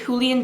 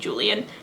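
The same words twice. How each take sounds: First: The name is said with a Spanish pronunciation. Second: The name is said with an American English pronunciation. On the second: "the more American way"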